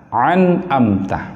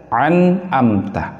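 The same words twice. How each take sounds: The two takes are said the same way.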